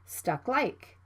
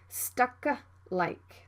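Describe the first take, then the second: First: The K is cut short without release. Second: The K is fully released before the L. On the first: The speaker calls it right. "You need to stop the K sound and move to the L sound right away" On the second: The speaker calls it wrong. "Don't say stuck like"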